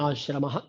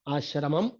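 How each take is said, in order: First: The word ends without an extra final syllable. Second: The word ends with an extra final 'am' syllable. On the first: "Sanskrit में आश्रम बोलना चाहिए" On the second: "Tamil में तो आश्रमम ऐसा बोलते हैं"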